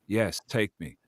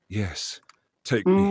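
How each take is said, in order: First: It is said flat, without expression. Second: It is said with expressive feeling.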